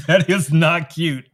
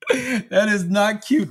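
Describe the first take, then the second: First: Said in the usual way. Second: Higher, slow mock-stern scold. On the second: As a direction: scold him in a higher, drawn-out voice.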